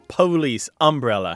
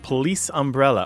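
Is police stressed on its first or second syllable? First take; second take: first; second. First: Police is stressed on its first syllable. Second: Police is stressed on its second syllable. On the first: This is the dialect way of saying it. The speaker calls it right. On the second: This is the mainstream way of saying it. The speaker calls it wrong.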